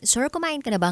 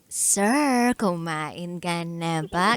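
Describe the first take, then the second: First: It is said in a plain, matter-of-fact tone. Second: It is said in a sweet, caring tone.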